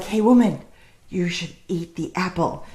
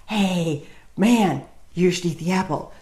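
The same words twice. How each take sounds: First: Devil tempting. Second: Lightly voiced woman passing on the temptation; a hint of casual peer pressure, kept low-key; woman coaxing. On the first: Acted. Devil coaxing the woman to eat the apple, lightly voiced tempter. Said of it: "And then the devil comes around. He's like". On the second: Woman urging the man to eat the apple, lightly imitated coaxing. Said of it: "And then the woman's all".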